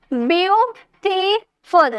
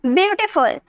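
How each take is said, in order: First: "ब्यूटीफुल" slowly in three separate beats; split syllables. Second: Said in the usual way. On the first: Shown as a demonstration. Teacher counting syllables aloud, "ब्यूटीफुल" slowly broken in three. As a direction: pause after each syllable of "ब्यूटीफुल". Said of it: "तीन syllable आए ना". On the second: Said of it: "अब इसे बोलिए".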